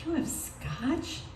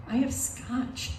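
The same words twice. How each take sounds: First: Slow, higher question rising on SCOTCH; "You have scotch?" slowly, lifting at the end; grandmother's question. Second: Slow, raised-pitch announcement of SCOTCH; "I have scotch" as a slow, higher statement; telling grandma. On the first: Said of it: "And she goes". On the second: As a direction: offer "scotch" slowly, pitched up, as news. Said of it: "I say". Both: Retold or imitated.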